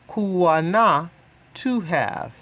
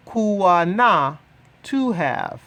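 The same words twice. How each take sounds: The two takes are said the same way.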